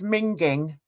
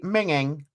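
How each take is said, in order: First: The G sound is clearly pronounced. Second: The G sound is left out. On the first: This is how another regional accent says it. "Zena pronounces the G" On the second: This is how the speaker's own regional accent says it. "We say minging"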